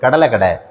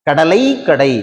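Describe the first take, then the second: First: The final 'lai' sounds like a short 'la'. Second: The final 'lai' has a full 'ai' vowel. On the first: The speaker calls it right. "லை என்பதை ல அப்படின்னு உச்சரிக்கும்" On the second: The speaker calls it wrong. "சொல்றது இல்லை"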